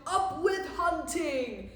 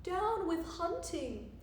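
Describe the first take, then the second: First: Loud, slow battle chant; rowdy storybook war cry; shouted slogan. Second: Lightly hooted, slow chant; mild hooting slogan, pitched up; hooted protest. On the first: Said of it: "And they shouted". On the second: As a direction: stretch it into a higher, drawn-out hoot. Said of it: "and he hooted". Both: A narrator's reading.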